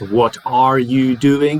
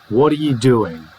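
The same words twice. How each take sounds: First: Every word is pronounced fully with no reduction. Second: The word are is reduced to a weak schwa. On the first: The speaker calls it wrong. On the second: The speaker calls it right. "R becomes uh, the schwa sound"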